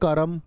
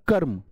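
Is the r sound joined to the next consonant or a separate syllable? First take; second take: separate; joined. First: The r is a full syllable with a vowel. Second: The r is joined to the next consonant. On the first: The speaker calls it wrong. "रे पूरा होता तो बोलते कर्म" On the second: The speaker calls it right. "अभी रे आधा है तो उसमें छिप चिपक के बोले जाएगा"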